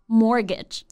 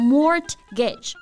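First: The middle T sound is silent. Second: The middle T sound is pronounced. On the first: The speaker calls it right. "中间的字母T 它是不发音的" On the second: The speaker calls it wrong. "千万不要读成mortgage, 那就不对了"

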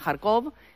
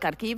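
First: The name ends with an 'ov' sound. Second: The name ends with an 'iv' sound. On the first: This is the Russian form of the name. The speaker calls it wrong. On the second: This is the Ukrainian form of the name. The speaker calls it right. "los ucranianos le llaman Kharkiv"

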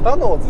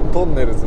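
First: It is said with English pronunciation. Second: It is said with Japanese katakana pronunciation. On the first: "急に英語の発音でさタノーズって言われても分かんない" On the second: "あのひらがなのイメージしかないからさ"

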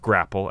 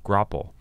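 First: The first syllable has a vowel other than short O. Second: The first syllable has a short O vowel. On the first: The speaker calls it wrong. "the correct pronunciation of the word is not grapple, as Buzzy Cohen said it" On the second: The speaker calls it right. "with a short O sound in the first syllable"

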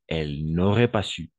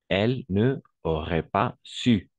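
First: Ne is contracted and runs into aurait. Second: Ne is a separate syllable before aurait. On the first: The speaker calls it right. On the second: The speaker calls it wrong.

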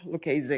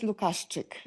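First: The surname is said with English pronunciation. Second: The surname is said with Polish pronunciation.

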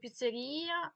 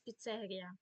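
First: The word carries the Russian stress placement. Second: The word carries the Ukrainian stress placement. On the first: "російська піцерія" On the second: "у нас піцерія"

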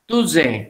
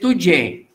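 First: The middle consonant is a z sound. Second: The middle consonant is a j sound. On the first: The speaker calls it wrong. "that pronunciation becomes Tuze" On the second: The speaker calls it right. "we say Tuje"

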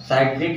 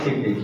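First: The first vowel sounds like 'eye'. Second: The first vowel sounds like 'ih'. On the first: This is how English speakers say it. "English में लोग इसको साइट्रिक बोलते हैं" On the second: This is how Hindi speakers say it. "Hindi में लोग इसको सिट्रिक बोलते हैं"

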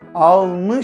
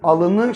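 First: The word has two syllables, dropping the middle vowel. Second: The word has three syllables, keeping the middle vowel. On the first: The speaker calls it right. "Alnı şeklinde söyleniyor" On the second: The speaker calls it wrong. "alını şeklinde söylenmiyor"

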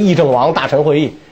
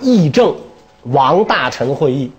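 First: The first pause comes right after 议政王. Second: The first pause comes right after 议政. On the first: It is a council of ministers under a deliberating prince. The speaker calls it wrong. "不是议政王大臣会议是吧？" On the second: It is a council of the deliberating princes and ministers. The speaker calls it right. "这个那个断句应该这么断啊"

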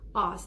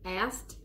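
First: The word is said in a British accent. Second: The word is said in an American accent. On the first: "For the British, you know, the English, Scottish, and all that, they would say asked" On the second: "The Americans would say asked"

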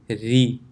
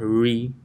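First: The r is said light, with an empty mouth. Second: The r is said heavy, with a full mouth. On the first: The speaker calls it right. "so empty mouth" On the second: The speaker calls it wrong. "It's not ri"

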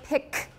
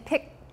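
First: The final K is released with a puff. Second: The final K is held and not released. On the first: The speaker calls it right. "I exploded the K" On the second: The speaker calls it wrong. "Instead of saying pick, pick would be harder to get"

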